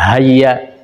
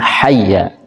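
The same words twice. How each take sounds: First: The first sound is a light, plain h. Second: The first sound is a harsh, throaty h. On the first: The speaker calls it wrong. "ini sering kita membacanya hayya" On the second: The speaker calls it right. "Hurufnya adalah huruf ha yang kecil"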